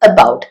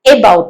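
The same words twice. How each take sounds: First: The first vowel is a weak schwa. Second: The first vowel is a full, clear vowel. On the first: The speaker calls it right. "ശ്വ സൗണ്ടിൽ തുടങ്ങുന്ന" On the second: The speaker calls it wrong. "about അല്ല"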